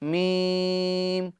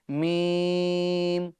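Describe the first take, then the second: Both takes have the same delivery.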